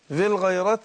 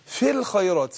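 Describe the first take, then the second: First: The second word starts with a voiced throat sound. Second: The second word starts with a voiceless, breathy sound. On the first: The speaker calls it wrong. "لا" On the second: The speaker calls it right. "في همس"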